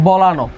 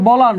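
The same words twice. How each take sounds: First: "বলানো" with a final o after the n; correct pronunciation. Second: "বলান" ending on a closed n; written form. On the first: Teacher answers the question, "বলানো" ending in sounded o. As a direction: let "বলানো" open into a round -no. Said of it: "হবে কি?". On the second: Teacher cites the word as spelt, "বলান" with no final vowel. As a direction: stop "বলান" at the n. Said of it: "আছে". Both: Shown as a demonstration.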